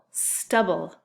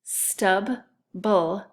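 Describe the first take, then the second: First: Said in the usual way. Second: STUBBLE as two separate beats, "Stub, bull"; split into syllables. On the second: Shown as a demonstration. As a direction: say "Stub", pause, then "bull". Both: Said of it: "listen closely to those syllables".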